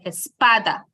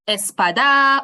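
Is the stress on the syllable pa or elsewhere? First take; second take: pa; elsewhere. First: The stress falls on the syllable pa. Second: The stress falls on a syllable other than pa. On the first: The speaker calls it right. "We say espada" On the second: The speaker calls it wrong. "and not something like, you know, um, espada"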